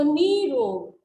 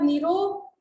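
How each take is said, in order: First: निरोग stretched slowly as "NEEE-rog", loud; slow, drawn-out "nee" in निरोग; long ee. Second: निरोग with a short "ni"; short-vowel form. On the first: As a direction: hold the first vowel of निरोग as a long "ee". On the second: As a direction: say निरोग quickly as "ni-rog". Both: Shown as a demonstration. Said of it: "बड़ी ई की मात्रा आएगी".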